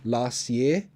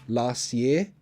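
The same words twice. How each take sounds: First: The T sound is left out completely. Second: The same.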